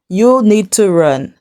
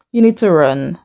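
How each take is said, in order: First: Slow, deliberate "You need to run"; emphatic repeat. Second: Said in the usual way. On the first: Real, not acted. Vlogger warns a woman to leave, slow and emphatic. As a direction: spell out "You need to run" slowly, word by word.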